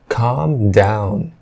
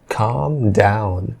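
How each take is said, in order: Both takes have the same delivery.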